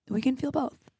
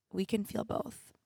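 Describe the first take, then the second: First: Said in the usual way. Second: Soft, slow, almost to herself; quiet. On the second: Real, not acted. Host quietly reassuring herself she can feel both. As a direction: let it sink in gently.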